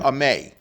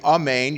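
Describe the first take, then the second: First: The word is cut short without the final n. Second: The word is said in full, ending with n. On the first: The speaker calls it wrong. "you cut it short... you didn't say the nun at the end" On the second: The speaker calls it right. "Instead of saying amen"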